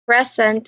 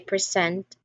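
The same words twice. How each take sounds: First: The stress is on the first syllable. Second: The stress is on the second syllable. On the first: Being there. "present as an adjective, like being there, stresses the first syllable" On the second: Giving something. "present as a verb, like giving, stresses the second"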